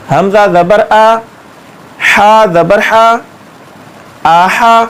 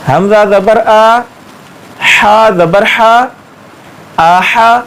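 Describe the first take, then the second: No difference in how they are said.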